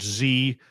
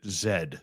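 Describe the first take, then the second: First: The letter name is said the American way. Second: The letter name is said the Commonwealth way. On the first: "you guys pronounce it Z" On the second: "In Commonwealth countries, we pronounce it Z"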